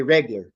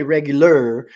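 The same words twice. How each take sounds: First: "regular" squeezed to two syllables, reg-lar; clipped reglar. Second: "regular" in three full syllables, reg-yu-lar; full careful regular. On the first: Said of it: "We don't say regular". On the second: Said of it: "we say regular". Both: Shown as a demonstration.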